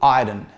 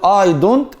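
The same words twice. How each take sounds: First: The final t sound is left out. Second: The final t sound is clearly pronounced. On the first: "شيل التي خالص" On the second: "بدل ما تقول"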